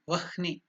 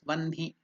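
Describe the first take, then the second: First: The h sound comes before the n. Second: The h sound comes after the n. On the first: The speaker calls it wrong. "it is written there as V A H N I" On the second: The speaker calls it right. "you should pronounce it as Vanhi"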